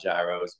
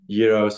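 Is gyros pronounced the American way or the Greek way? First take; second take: American; Greek. First: It is said with an American pronunciation. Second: It is said with the local Greek pronunciation. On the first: The speaker calls it wrong. "It's not gyros" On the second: The speaker calls it right. "that's how you say it over here"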